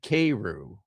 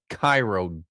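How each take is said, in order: First: The first syllable sounds like 'kay'. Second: The first syllable sounds like 'kye'.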